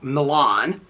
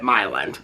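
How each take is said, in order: First: It is said the familiar, standard way. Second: It is said the local, regional way. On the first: This is how the name is spelled. "there's a town that is spelled" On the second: This is how the locals say it. "but they pronounce it"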